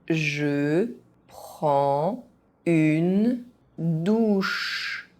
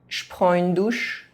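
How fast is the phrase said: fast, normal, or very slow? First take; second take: very slow; fast. First: It is said very slowly, syllable by syllable. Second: It is said fast, with some sounds dropped. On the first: Each syllable can be followed. "very slowly" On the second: This is how native speakers say it. "fast, as a native speaker would do"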